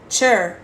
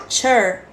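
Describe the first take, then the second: The two takes are said the same way.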